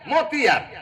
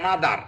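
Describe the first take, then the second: First: The word is read letter by letter with t. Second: The word is said normally with a d-like sound. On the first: This follows the spelling. "এম ও টি এইচ ই আর মতিয়ার" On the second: This is how people actually say it. "তা কয় না মাদার"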